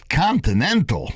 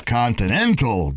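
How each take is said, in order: First: Put-on high, scornful Italian Jewish accent. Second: Put-on Italian Jewish accent. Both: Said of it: "He said it with an Italian Jewish accent".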